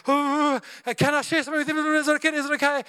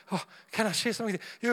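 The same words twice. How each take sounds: First: Timid asking. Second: Nervous rush. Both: Retold or imitated. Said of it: "You build up all your courage".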